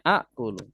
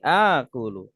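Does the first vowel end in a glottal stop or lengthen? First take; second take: glottal stop; lengthens. First: A glottal stop follows the first vowel. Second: The first vowel is long, with no stop. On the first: This is the original underlying form. "Asalnya akulu" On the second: This is the softened everyday form. "Dilebur jadi panjang. Jadi akulu"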